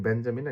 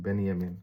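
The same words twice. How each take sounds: First: বেঞ্জামিন as "Ben-ja-min", hard j; English J. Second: বেনিয়ামিন as "Ben-ya-min", y sound; German J. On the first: Teacher comparing English and German names, English J. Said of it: "একটা আমরা বলি". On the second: Teacher comparing German with English, German J as Y. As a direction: turn the j of বেনিয়ামিন into y. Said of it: "English আর German ভাষার". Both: Shown as a demonstration.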